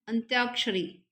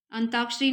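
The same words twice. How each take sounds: First: अंत्याक्षरी as "ant-yaak-shari"; correct ANTYAKSHARI. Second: अंताक्षरी as "an-taak-shari", no y; mispronounced ANTAKSHARI. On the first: Teacher showing the right spelling, अंत्याक्षरी with a clear "tya". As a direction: sound the y after t in अंत्याक्षरी. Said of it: "इस तरीके से लिखा जाता है". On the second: Teacher showing the common mistake, अंताक्षरी without its y. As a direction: drop the y sound in अंताक्षरी. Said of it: "अंताक्षरी नहीं लिखा जाता है". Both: Shown as a demonstration.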